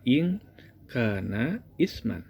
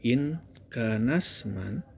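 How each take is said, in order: First: Each word is separate; the initial glottal stop is sounded. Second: The words run together; the initial glottal stop is dropped. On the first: The words are read one at a time. "kalau kita baca perkata" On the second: The phrase is read in connected speech. "kalau kita baca langsung"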